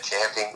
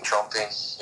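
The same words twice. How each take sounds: First: Champing said with a flat a, like champ; champing with the a of cat. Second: Chomping said with an o, like chomp; chomping, the o as in chop; chomping with a round o. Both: Shown as a demonstration. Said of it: "Yeah, chomping at the bit even".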